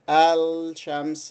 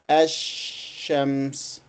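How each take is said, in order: First: The l sound is fully pronounced before shams. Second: The l is dropped and the sh is doubled. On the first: The speaker calls it wrong. "We do not say Al, Al-Shams. This is not correct" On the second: The speaker calls it right. "We say Ash-Shams, Ash-Shams. So the lam is dropped"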